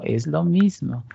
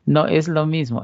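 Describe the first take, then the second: First: Slow, firm "Es lo mismo"; insisting "mismo", drawn out; stress on mismo. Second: "No" hit first and firm; objecting with weight on "No"; stress on NO. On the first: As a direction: lean on "mismo" as a correction. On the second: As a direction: punch the "No" of "No es lo mismo". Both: Shown as a demonstration. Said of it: "teacher contrasts".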